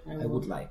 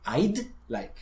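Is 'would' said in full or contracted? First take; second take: full; contracted. First: The word would is said in full. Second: Would is shortened to a single d sound.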